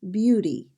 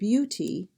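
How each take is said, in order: First: The middle consonant is a soft D sound. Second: The middle consonant is a sharp T. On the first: "We usually change it to a D sound" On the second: "we do not say it as a sharp T"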